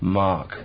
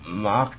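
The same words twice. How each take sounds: First: The word is restarted and said relaxed, smoothly. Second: The word is held in a stuttering block. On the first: "entweder zu stoppen und dann wiederholen" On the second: "wenn man dann einen Block hat"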